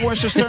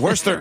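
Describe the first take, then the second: First: It has an extra syllable, as spelled. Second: It is pronounced with fewer syllables. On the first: The speaker calls it wrong. "C'est pas Worcester" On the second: The speaker calls it right. "c'est Worcester"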